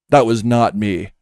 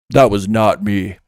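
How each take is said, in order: The two takes are said the same way.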